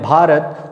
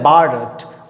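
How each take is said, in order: First: It starts with an aspirated bh and dental t. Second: It starts with a plain b and hard t. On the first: This is how locals say it. "हम लोग बोलते हैं भारत" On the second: This is how English people say it. "भ को क्या बोलते हैं, ब ... त होता है उसको क्या बोलते हैं, ट"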